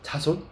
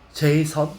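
First: It is said as ja-son. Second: It is said as jay-sun. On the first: "자손이라고 읽지 마세요" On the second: "뭐 이렇게 읽는 사람들이 있습니다"

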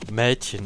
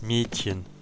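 First: The first vowel is an open ä sound. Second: The first vowel is a closed e sound. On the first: The speaker calls it right. "Das heißt ja auch Mädchen" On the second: The speaker calls it wrong. "und nicht Mädchen"

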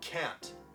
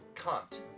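First: It is said in an American accent. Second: It is said in an Australian accent. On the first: "미국 영어로는" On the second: "호주에서는"

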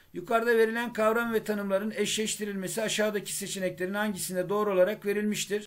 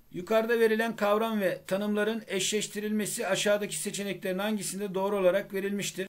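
Both takes have the same delivery.

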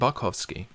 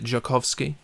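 First: The name starts with a B sound. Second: The name starts with a J sound. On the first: "Is the J silent?" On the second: "Is the B silent?"

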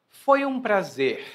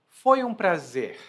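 No difference in how they are said.

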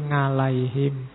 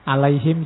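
First: It is said with a Javanese accent. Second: It is said with standard Arabic pronunciation.

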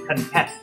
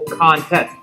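First: The stress is on the second syllable. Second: The stress is on the first syllable. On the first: "On the second syllable" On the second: "On the first syllable"

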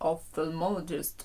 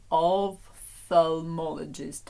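First: It is said quickly with one f sound dropped. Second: It is said slowly with both f sounds.

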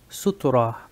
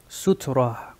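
No difference in how they are said.

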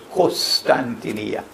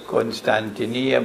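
First: The first syllable sounds like kos. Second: The first syllable sounds like kon. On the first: This is how Arabic speakers pronounce it. "in Arabic they pronounce it as Constantinia. Kos, not Kon" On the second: This is the speaker's own usual pronunciation. "I pronounce it as Constantinia"

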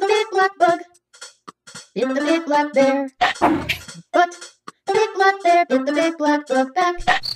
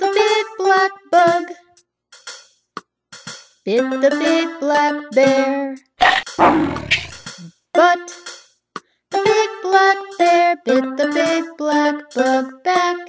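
First: It is said at the fastest pace. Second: It is said at a slower pace.

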